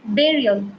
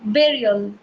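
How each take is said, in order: Both takes have the same delivery.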